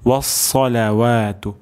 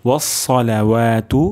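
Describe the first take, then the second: No difference in how they are said.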